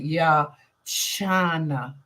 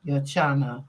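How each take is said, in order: First: Yachana said very slowly, syllable by syllable; slow practice of Yachana; careful name practice. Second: Said in the usual way. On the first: Shown as a demonstration. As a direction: spell out Yachana slowly with the sound. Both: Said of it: "I'm gonna try and remember that".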